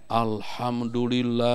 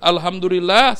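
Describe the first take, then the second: First: The word is drawn out very long. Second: The word is said at moderate length.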